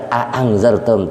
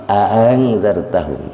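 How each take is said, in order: First: Two hard, separate hamzahs in "a angzartahum"; quick "a", clean stop, then "angzartahum"; full tahqiq. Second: Second hamzah of "a angzartahum" softened into a glide; "a angzartahum" run together without a hard stop; tashil. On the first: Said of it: "Bukan a angzartahum, tapi". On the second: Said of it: "Hamzah yang kedua diringankan". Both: Shown as a demonstration.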